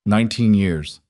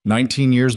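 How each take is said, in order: First: Voice cracking. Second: Hurt, raised voice. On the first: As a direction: voice cracking on nineteen years. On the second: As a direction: push back harder, still hurt. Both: A narrator's reading. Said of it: "His voice cracked".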